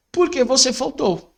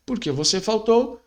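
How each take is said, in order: First: "Por que você faltou?" high, stressed on "Por"; direct question, sharp. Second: "Por que você faltou?" ending on a rising "faltou"; plain question, rising on "faltou"; questioning rise. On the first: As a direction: ask it pointedly, voice up on "Por". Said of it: "uma pergunta direta". (pergunta direta enfática, "Por" agudo) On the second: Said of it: "É uma pergunta direta". (pergunta com entonação subindo no "faltou") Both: Shown as a demonstration.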